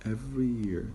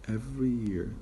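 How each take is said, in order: First: The words are linked with a y sound. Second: The same.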